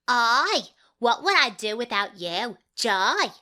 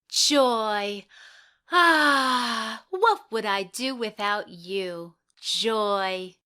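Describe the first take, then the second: First: It is said in a Cockney accent. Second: It is said in her own plain accent.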